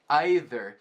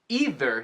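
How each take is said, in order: First: It is said in the way used in England. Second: It is said in the usual American way.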